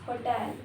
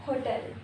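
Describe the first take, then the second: The two takes are said the same way.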